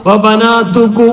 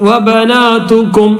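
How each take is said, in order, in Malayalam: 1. ഈ വാക്ക് തുറന്ന സ്വരാക്ഷരത്തിലാണ് അവസാനിക്കുന്നത്. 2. ഈ വാക്ക് ചുണ്ടടച്ച് m എന്ന ശബ്ദത്തിലാണ് അവസാനിക്കുന്നത്. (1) "ചുണ്ട് പൂട്ടാതെ ഇങ്ങനെ വബനാതുക്കു ... എന്ന് പറഞ്ഞുകൊണ്ട് പോകാൻ പറ്റില്ല" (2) "കും എന്ന് പറയണം"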